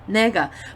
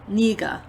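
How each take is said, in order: First: The first vowel sounds like 'e'. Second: The first vowel sounds like 'i'. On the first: This is how the spelling looks. "that looks like nega" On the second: This is how people actually say it. "But they say niga"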